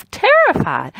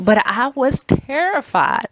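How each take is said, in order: First: Terrified said as a high, wide-eyed echo; dramatic stress on terrified. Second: Said in the usual way. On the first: Real, not acted. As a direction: stretch terrified up high like a gasp of fear. Repeats word with dramatic emphasis.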